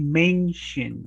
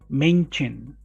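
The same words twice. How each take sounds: First: The middle consonant is a clear 'sh' sound. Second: The middle consonant is not a clear 'sh'. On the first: The speaker calls it right. "We say mention" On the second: The speaker calls it wrong. "Ah, no, right?"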